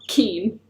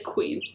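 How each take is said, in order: First: The word begins with a plain k sound. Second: The word begins with a kw sound. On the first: The speaker calls it wrong. "not keen" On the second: The speaker calls it right. "We say queen"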